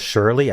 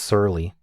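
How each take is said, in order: First: The word begins with an sh sound. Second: The word begins with an s sound. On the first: The speaker calls it wrong. "I've been pronouncing this as Shirley" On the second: The speaker calls it right. "I think it's surly"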